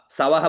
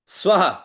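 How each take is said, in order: First: सवह as three syllables, sa-va-ha; demonstrating the mistaken सवह with broken cluster; wrong split cluster. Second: स्वह with s and v run together; two-syllable स्वह, joined sv; correct cluster. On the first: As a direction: put a full vowel after the s in सवह. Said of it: "नहीं, नहीं". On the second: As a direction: say स्वह with no vowel after the s. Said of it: "शुद्ध उच्चारण". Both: Shown as a demonstration.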